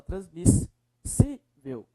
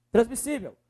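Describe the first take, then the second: First: "Transmissível" slowed, with SI set apart and drawn out; stress on SI. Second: Said in the usual way. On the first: Shown as a demonstration. Teacher showing the strongest syllable, stressed SI. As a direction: hold back, then lean on SI in "Transmissível". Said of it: "É o si, professor".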